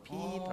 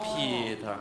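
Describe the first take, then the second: First: The pitch goes up on the name. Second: The pitch goes down on the name.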